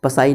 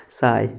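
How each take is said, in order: First: पसाई with the P sounded, pa-sai; wrong pronunciation with P. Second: साई said as plain sai, no P sound; correct pronunciation, silent P. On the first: Teacher showing students the wrong way, P sounded. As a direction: say पसाई, voicing the silent P up front. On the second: Teacher showing students the right way, silent P. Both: Shown as a demonstration. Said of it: "इसको पी silent है".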